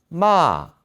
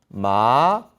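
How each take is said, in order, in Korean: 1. 사성으로 발음합니다. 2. 이성으로 발음합니다. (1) "사성" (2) "이성"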